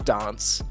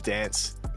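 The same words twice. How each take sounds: First: The word is said in a posh-sounding accent. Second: The word is said in a broad bogan accent. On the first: This is how the speaker's own region says it. "We're like very posh with the accent compared to other states" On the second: This is how the other regions say it. "the rest of Australia really has that Australian, like bogan kind of accent"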